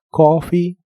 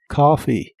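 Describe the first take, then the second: First: The first vowel is a rounded 'oh' sound. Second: The first vowel is an open, deep 'ah' sound. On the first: "con la O" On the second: "con la A profunda"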